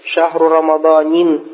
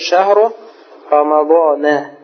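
First: The last word ends with the sound 'in'. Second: The last word ends with the sound 'a'. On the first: The speaker calls it wrong. "не говорит же в Коране, говорит, что шахру рамаданин" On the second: The speaker calls it right. "а как говорит шахру рамадана"

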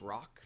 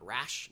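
First: The name ends in a k sound, like 'rock'. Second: The name ends in an sh sound, like 'rash'. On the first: The speaker calls it right. "it is pronounced Rock" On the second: The speaker calls it wrong. "not Rash"

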